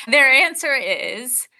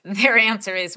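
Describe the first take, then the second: First: Slow, raised "their answer is" with a rising build-up; dramatic pause. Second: Said in the usual way. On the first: Shown as a demonstration. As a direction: stretch "their answer is" out slowly and lift the pitch before the reveal. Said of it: "You know".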